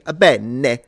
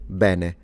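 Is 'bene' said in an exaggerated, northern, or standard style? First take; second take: exaggerated; standard. First: It has a thick, stereotyped fake Italian accent. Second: It has a plain, natural Italian pronunciation. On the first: This is how Italians do not actually speak. The speaker calls it wrong. "No Italian would say bene" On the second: This is how Italians actually say it. The speaker calls it right. "We say bene"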